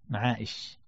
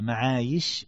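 First: The middle consonant is a glottal stop. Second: The middle consonant is a y sound. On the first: The speaker calls it wrong. "خطأ العلماء من قرأ معائش بالهمزة" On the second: The speaker calls it right. "معايش بالياء أن الياء أصلية"

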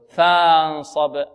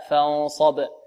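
First: The first vowel is drawn out long. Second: The first vowel is short. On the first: The speaker calls it wrong. "فيظن أنها ماذا؟ ألف مدية" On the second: The speaker calls it right. "همزة الوصل تحذف وصلا"

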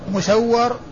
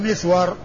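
First: The first vowel is u, with doubled w. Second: The first vowel is i, with s unvoweled. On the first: It names only two specific people. "فاثنان مسور" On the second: It names everyone else with this name. "ومن عداه أو من عداهما فهو مسور"

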